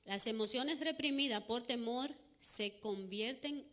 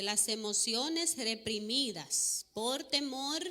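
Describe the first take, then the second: First: Said in the usual way. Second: Reads the phrase slowly, word by word; slow it right down so each word lands; slow deliberate quote of "Las emociones reprimidas por temor"; slow emphatic reading. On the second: Shown as a demonstration. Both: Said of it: "Voy a ir en cámara lenta".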